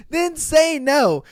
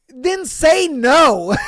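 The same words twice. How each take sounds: First: Slow, higher then say no; emphatic repeat. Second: Slow, loud, higher then say no; exasperated emphasis. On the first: Podcaster repeating the advice, slow and higher. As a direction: say it slowly, pressing on say. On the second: Podcaster to his listeners, slow and loud in disbelief. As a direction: say no slowly, leaning on say. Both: Real, not acted. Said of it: "exasperated repeat".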